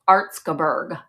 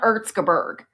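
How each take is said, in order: First: The first vowel sounds like 'ar'. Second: The first vowel sounds like 'air'. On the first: The speaker calls it right. "It's Arzgebirge" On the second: The speaker calls it wrong. "It's not Erzgebirge"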